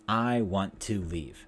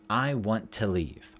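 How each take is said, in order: No difference in how they are said.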